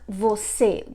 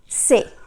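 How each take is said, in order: First: The word is said in full, two syllables. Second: The word is shortened to one syllable. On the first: "they don't say the whole word like você" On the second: "They usually say se"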